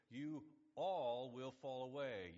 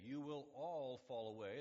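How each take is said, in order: First: Drawn out slowly, louder and weighty; slow solemn line. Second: "all" hit hard and held; stress on all. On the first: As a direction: lay each word down slowly. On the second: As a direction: lean on the word "all" in "You will all fall away". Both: Shown as a demonstration.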